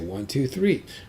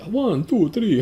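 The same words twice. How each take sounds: First: It is counted in a plain accent. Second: It is counted in a Dracula-like accent.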